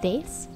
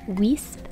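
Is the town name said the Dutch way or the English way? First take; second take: Dutch; English. First: The name is said with a Dutch-style pronunciation. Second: The name is said with an English-style pronunciation. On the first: The speaker calls it right. "it's actually pronounced more like" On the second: The speaker calls it wrong. "I always want to pronounce the name of this town like"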